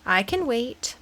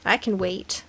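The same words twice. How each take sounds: First: "can" benadrukt en vol uitgesproken; stress on CAN. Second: "I" benadrukt, niet "can"; stress on I. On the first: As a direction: leg de klemtoon op "can". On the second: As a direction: leg de klemtoon op "I". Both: Shown as a demonstration.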